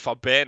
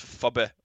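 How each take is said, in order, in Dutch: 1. Het woord wordt in standaard Italiaans uitgesproken. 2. Het woord wordt met een Napolitaans accent uitgesproken. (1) "Gewoon een simpel woord als Faben" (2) "En dat zeggen zij als iets als Faben"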